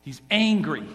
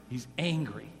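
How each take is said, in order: First: "He's angry" said firmly, a bit louder; weighty, emphatic "He's angry."; stress on angry. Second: "He's angry" dropped low and soft; hushed echo of "He's angry."; softer repeat. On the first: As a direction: land hard on "angry". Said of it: "repeated louder then softer". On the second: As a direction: let "He's angry" fall quietly. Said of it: "repeated softly". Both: Shown as a demonstration.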